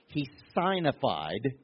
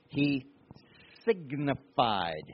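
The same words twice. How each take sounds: First: The first syllable sounds like sign. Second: The first syllable sounds like sig. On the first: The speaker calls it wrong. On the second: The speaker calls it right.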